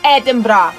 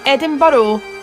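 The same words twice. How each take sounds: First: The name is pronounced the Scottish way. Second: The name is pronounced the American way. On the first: The speaker calls it right. "It's Edinburgh" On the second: The speaker calls it wrong. "Not Edinburgh"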